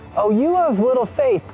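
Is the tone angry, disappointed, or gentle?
gentle. The voice sounds warm and kindly inviting. The listeners are being invited to something better. "there's a better invitation right here"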